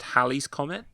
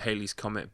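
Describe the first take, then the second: First: The first syllable sounds like 'hal'. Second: The first syllable sounds like 'hay'. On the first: The speaker calls it right. "it's actually pronounced" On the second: The speaker calls it wrong. "I would pronounce it"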